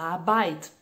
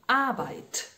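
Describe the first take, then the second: First: The final t is released weakly. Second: The final t is released strongly. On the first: The speaker calls it wrong. "A gente lê e fala Arbeit. Não" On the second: The speaker calls it right. "Explode esse T"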